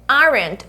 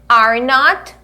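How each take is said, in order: First: It is said as one contracted word. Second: It is said as two full words. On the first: "o are not vira o quê? Aren't" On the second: "aqui a gente vai ter are not"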